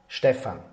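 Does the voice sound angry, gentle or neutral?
neutral. It is said in a neutral tone.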